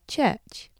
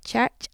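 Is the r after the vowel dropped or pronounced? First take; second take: dropped; pronounced. First: The r after the vowel is dropped. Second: The r after the vowel is pronounced. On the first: This is the more modern pronunciation. "the more modern pronunciation, without" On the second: This is the older local pronunciation. "the older pronunciation, with roticity"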